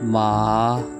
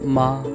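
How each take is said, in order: First: The pitch rises from low to high. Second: The word is said quickly and sharply. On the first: "low pitch से high pitch पे" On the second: "तेज़ी के साथ आपने ऐसे बोलना है"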